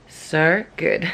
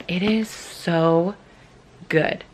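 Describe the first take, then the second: First: So good in a playful Australian accent, good said like goood; mock Australian twang on good; a light, half-joking Australian accent. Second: Said in the usual way. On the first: Shown as a demonstration. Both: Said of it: "I try and say it in an Australian accent".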